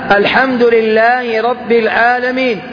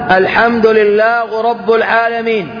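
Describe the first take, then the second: First: The endings of lillah and rabb carry an i-vowel. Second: The endings of lillah and rabb lack an i-vowel. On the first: The speaker calls it right. "بكسر الآء وبكسر الباء" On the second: The speaker calls it wrong. "هنا هذا لحن"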